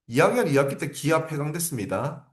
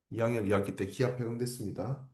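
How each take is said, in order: First: Said in the usual way. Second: Soft echo. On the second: Shown as a demonstration. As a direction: repeat it much softer, almost to yourself. Teacher repeats key fact softer.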